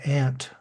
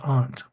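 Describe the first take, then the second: First: It is said in a broad Middle American accent. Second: It is said in a non-Middle American accent. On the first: "in broad Middle American accent" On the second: "you may hear the word pronounced as aunt"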